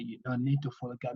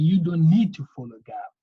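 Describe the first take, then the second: First: A quick, softer echo of "don't need to follow gap"; quiet, faster restatement of the rule; softer repeat. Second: A louder firm point on "don't need"; firm first telling of the rule; emphatic statement. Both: Shown as a demonstration.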